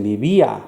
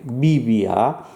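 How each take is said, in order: First: "vivía" stressed on the second syllable, vi-VÍ-a; stress on accented í. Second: "vivía" with the stress wrongly on the first syllable, VI-via; misplaced stress. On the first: Teacher showing where the accent is, "vivía" stressed as vi-VÍ-a. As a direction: lean on the í in "vivía". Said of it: "where that accent is". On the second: Teacher showing students the wrong version, VI-via stressed up front. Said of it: "where to emphasize". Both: Shown as a demonstration.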